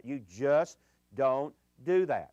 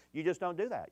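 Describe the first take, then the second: First: Louder and slow, each word weighted, stress on do; slow emphatic repeat. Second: Said in the usual way. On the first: Real, not acted. Pastor warning teenagers, slow and emphatic. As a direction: hammer it home word by word.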